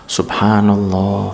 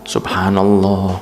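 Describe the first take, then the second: The two takes are said the same way.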